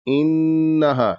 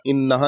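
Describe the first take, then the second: First: The nasal n sound is held for a while. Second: The nasal n sound is cut short quickly. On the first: The speaker calls it right. "इस गुन्ना को नाक में थोड़ी देर तक रखना है" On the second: The speaker calls it wrong. "जल्दी से नहीं पढ़ देना, इन्नहा नहीं पढ़ना है"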